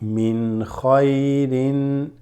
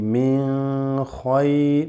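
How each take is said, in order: First: The n is pronounced clearly and fully. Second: The n is hidden in a nasal hum. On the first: The speaker calls it right. "So you just say min khayrin" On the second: The speaker calls it wrong. "This is not a letter ikhfa, so you do not say min khayr"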